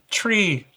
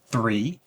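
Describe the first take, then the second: First: The word starts with a sharp t sound. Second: The word starts with a soft th sound.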